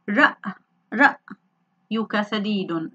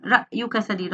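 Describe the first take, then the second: First: Very slow, stopping hard after رأ in رأيك; word broken at hamza. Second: Said in the usual way. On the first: Shown as a demonstration. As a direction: sound out رأيك in pieces, holding the break on the hamza. (نطق رأيك ببطء شديد مع الوقوف على الهمزة الساكنة) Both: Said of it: "ما حركة الهمزة؟".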